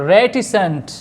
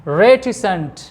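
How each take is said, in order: No difference in how they are said.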